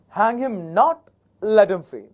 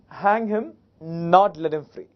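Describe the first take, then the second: First: There is a pause right after 'not'. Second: There is a pause right after 'hang him'.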